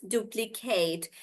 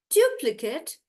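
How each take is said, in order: First: "duplicate" with stretched "KATE"; "duplicate" as "du-pli-KAYT"; verb pronunciation. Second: "duplicate" stressed on DU, short "kut"; "duplicate" as "DU-pli-kut"; noun pronunciation. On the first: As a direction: draw out the end of "duplicate". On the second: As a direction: hit DU in "duplicate". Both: Shown as a demonstration. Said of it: "noun versus verb".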